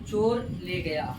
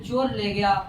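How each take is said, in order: First: Each word is said carefully and separately. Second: The words run together quickly, sounds merging. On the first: "जब हम संभाल संभाल करके बोलते हैं" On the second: "जल्दबाजी में जल्दी से उच्चारण"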